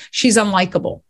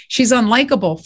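First: Said in the usual way. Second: Mildly indignant repeat of a criticism; irked echo. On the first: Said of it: "they would always say". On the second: Retold or imitated. Writer repeating feedback on her main character, irked. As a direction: throw the verdict back, a touch irked. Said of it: "that really got in my crawl".

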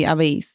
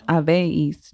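First: "habéis" with no emphasis on any syllable; no accent demo. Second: "habéis" with emphasis on the E; stress on the E. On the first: Co-host showing the unaccented version, even stress on "habéis". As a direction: say "habéis" evenly, leaving the E unstressed. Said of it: "if you said it without the accent". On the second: Co-host correcting the reader's Spanish, stress on the E. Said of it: "The emphasis should be on the E". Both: Shown as a demonstration.

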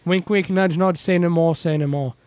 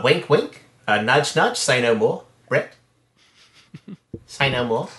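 First: Put-on botched British accent that slips toward Australian; failed Eric Idle accent drifting Australian; bad British accent. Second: Put-on lightly done New Zealand accent, Murray style; a hint of Murray from a comedy band's TV show; Murray impression. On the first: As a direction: try a British Monty Python line and miss. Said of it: "that sounded a little more like a shitty Australian accent than British". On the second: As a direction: Kiwi accent, mildly put on. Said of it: "I'll do it as Murray from Flight of the Conchords".

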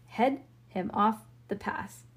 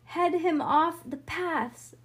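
First: Said in the usual way. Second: High, drawn-out call; cried command. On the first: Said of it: "Head him off the paths? That doesn't make any sense". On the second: A narrator's reading. Bean directing Harlan and Franny, cried command. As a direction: call it across the field, slowly. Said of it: "Cried Bean to Harlan and Franny".

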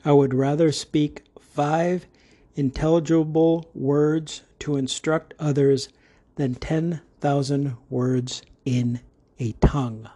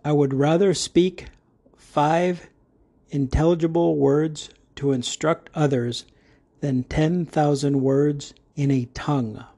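First: A second careful read of the verse; scripture reading repeated. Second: Measured Bible reading of the verse; careful recitation from Corinthians; scripture reading. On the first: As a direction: read it through again, steady. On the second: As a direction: read the verse deliberately. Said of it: "Begin reading". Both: Shown as a demonstration.

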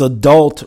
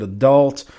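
First: Said in the usual way. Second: Adult said alone with weight on the second syllable; stress on adult. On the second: Shown as a demonstration. Host teasing the adult relationship shows, pressing adult. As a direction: lean on the word adult, dult pressed. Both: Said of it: "Stress that word".

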